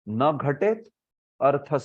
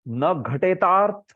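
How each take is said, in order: First: The words are split apart, not blended. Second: The words are blended into one sound. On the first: The speaker calls it wrong. "ऐसे बोल रहे हैं" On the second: The speaker calls it right. "वो ऐसा नहीं है, न घटेतार्थ संभव है"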